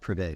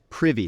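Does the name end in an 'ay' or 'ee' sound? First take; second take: ay; ee. First: The name ends with an 'ay' sound. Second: The name ends with an 'ee' sound. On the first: The speaker calls it wrong. "not Privé" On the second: The speaker calls it right. "Privy, not Privé"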